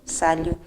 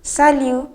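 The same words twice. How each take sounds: First: Said in the usual way. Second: Raised, louder opening salut; bright greeting. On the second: Shown as a demonstration. Teacher demonstrating the greeting before its reply, bright and raised. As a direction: call out the first salut high and bright. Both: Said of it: "the response to salut is salut".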